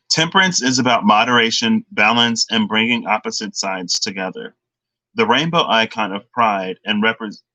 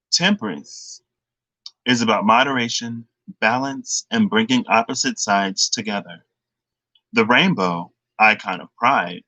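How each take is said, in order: First: Hurried read with short pauses; rushed reading. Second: Measured read, pausing between phrases; slowed-down reading. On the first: Reader rushing through the Temperance card text, hurried. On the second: Tarot reader rereading the Temperance card, slowed down. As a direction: take it slowly, phrase by phrase. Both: Real, not acted. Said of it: "I need to slow down".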